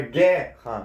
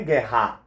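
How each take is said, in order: First: "guerra" with a strong GUE and a light ending; stress on first syllable. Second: "guerra" wrongly stressed as gue-RRÁ; stress on last syllable. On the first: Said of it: "a penúltima sílaba é a sílaba tônica". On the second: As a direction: push the final syllable of "guerra". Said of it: "teria acento". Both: Shown as a demonstration.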